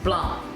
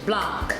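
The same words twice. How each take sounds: First: The final C is silent, with no k sound. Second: The final C is pronounced as a k sound. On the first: "the C is left out and it's pronounced Blanc" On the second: "we would say in English Blanc"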